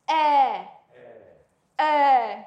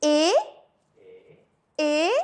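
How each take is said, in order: First: "eh" as an open French è; open è sound. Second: "et" as a closed French é; closed é sound. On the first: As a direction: say "eh" with the mouth a little more open. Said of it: "the mouth is a little more open". ("eh" prononcé è ouvert) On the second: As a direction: say "et" with the mouth less open. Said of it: "My mouth is like that". ("et" prononcé é fermé) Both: Shown as a demonstration.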